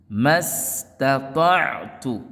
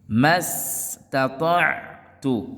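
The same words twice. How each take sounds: Both takes have the same delivery.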